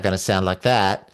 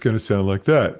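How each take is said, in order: First: The voice sounds bright, thin and high-placed. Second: The voice sounds dark, deep and low-placed. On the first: "if I want my larynx to go up" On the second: "want my voice to go down"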